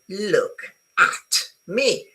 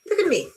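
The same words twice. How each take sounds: First: 'At' is stressed with a full vowel. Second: 'At' is unstressed with a schwa vowel. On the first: "it's a nice short vowel, as in cat, okay? And I put stress on" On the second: "whenever I take the stress away from a vowel, the vowel become a schwa"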